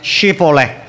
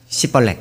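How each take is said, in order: First: The word begins with an sh sound. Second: The word begins with an s sound. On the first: This is the pronunciation the test demanded. The speaker calls it right. "자 발음해 쉬벌렉 이렇게" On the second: It gives the speaker away as an Ephraimite. The speaker calls it wrong. "에브라임이 씨벌렉 이렇게 해가지고 걸려가지고"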